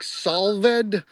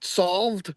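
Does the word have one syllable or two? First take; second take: two; one. First: The ending is a separate syllable. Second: The ending is not a separate syllable. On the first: "pronounced as a separate syllable" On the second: "or just solved"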